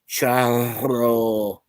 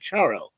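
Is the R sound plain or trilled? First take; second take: trilled; plain. First: The R sounds are rolled with a trill. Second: The R sounds are plain, without a trill.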